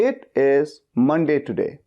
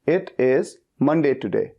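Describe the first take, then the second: Both takes have the same delivery.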